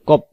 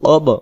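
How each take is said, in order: First: It ends in a p-like sound. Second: It ends in a bouncing b sound. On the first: The speaker calls it wrong. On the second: The speaker calls it right.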